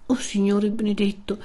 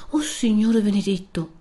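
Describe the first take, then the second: First: Overcome, lightly acted tremor; understated trembling cry of amazement; trembling reply. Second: Higher, understated cry of amazement; mild startled exclamation; astonished cry. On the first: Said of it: "replicò ancora più tremante Lucia". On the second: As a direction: exclaim in disbelief, without shouting. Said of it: "guarda più attenta e grida". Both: A narrator's reading.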